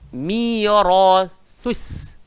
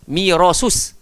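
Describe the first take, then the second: First: The middle consonant is a 'th' sound. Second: The middle consonant is an 's' sound. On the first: The speaker calls it right. "bagusnya gigit lidah dulu" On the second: The speaker calls it wrong. "kita akan bagi dua-dua sin"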